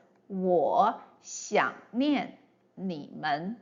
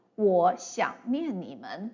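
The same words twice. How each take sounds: First: Slow, "我想念你们" with each syllable clearly separated. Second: Said in the usual way. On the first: Shown as a demonstration. Teacher modelling Mandarin sentence rhythm for learners, slow and distinct. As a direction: space out every character evenly. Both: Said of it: "would be pronounced as".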